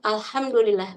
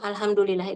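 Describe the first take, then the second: First: It is said with an Arabic accent. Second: It is said with an Indonesian accent. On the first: The speaker calls it right. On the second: The speaker calls it wrong. "kalau orang Indonesia banyak yang"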